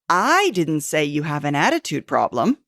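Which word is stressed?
I. The word "I" is stressed.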